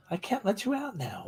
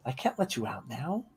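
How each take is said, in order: First: High soft voice for the dog; soft high pet voice. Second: Said in the usual way. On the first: Real, not acted. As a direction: coax the dog gently, pitched up. Telling the dog to wait.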